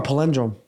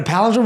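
First: Palindrome said puh-LIN-drum; alternative pronunciation. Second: Said in the usual way. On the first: Shown as a demonstration. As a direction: stress palindrome on the second syllable, LIN. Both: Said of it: "Is it a palindrome or a palindrome".

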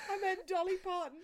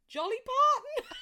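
First: Said in the usual way. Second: Blurting the wrong name and cracking up; slip of the tongue. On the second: Real, not acted. Mixing up [name] while teasing partner's accent, giggling. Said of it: "I meant [name]".

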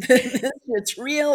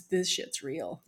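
First: Loud, slow, laughing through the words; loud amazed laugh-talk. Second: Said in the usual way. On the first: Real, not acted. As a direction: burst out laughing as it sinks in. Laughing repeat of realization.

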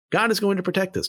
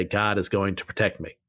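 First: "God is going to protect us" said much higher, with weight on "God"; sincere affirmation. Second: "God is going to protect me" lower and softer, a mock of the snake handler; mocking quote. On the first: Real, not acted. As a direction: affirm it earnestly, lifting on "God". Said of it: "That is true". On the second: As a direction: undercut the boast with a low, dry parody. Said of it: "pick up a rattlesnake and say".

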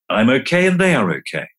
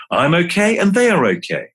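First: Settled affirmation. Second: Higher, lifted affirmation; bright affirmation. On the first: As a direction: let it land calmly. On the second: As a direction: say it up, as if convincing yourself. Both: Shown as a demonstration. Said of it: "here's a mantra or two".

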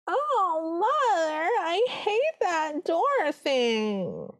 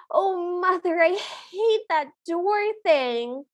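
First: Very high, extremely drawn-out whine; exaggerated stepsister impression, every word stretched high; hammed-up high moan, sliding down at the very end; Arlene. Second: High, slow whiny complaint; mildly hammed-up, higher-pitched protest; Arlene. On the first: Shown as a demonstration. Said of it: "the way that Arlene speaks is". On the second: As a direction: imitate a stepsister dragging out a moan. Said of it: "the way that Arlene speaks".

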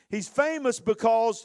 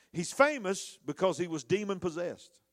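First: "He's famous because" punched louder and higher, slowly; emphatic repeat. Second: Said in the usual way. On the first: Shown as a demonstration. Preacher to congregation, repeating "famous because" louder and slower. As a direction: lean hard on "famous" the second time.

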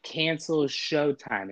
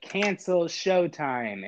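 First: "Cancel Showtime" slow and firm; slow deliberate command. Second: "Cancel Showtime" drawn out slowly, word by word; slow deliberate command. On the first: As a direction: repeat it patiently slowly. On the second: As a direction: say it slowly for the robot. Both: Retold or imitated. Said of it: "I just have to say two words".

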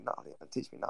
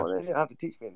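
First: Much softer, breathy near-whisper; whispered refusal. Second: Said in the usual way. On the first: Real, not acted. Refusing the accent lesson from a friend, in a whisper. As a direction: drop it to a whisper, backing off.

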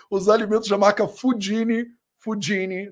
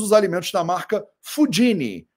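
First: Fudini said the Italian way, foo-DEE-nee; Italian accent. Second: Said in the usual way. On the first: Shown as a demonstration. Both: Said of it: "tô pronunciando com meu sotaque italiano".

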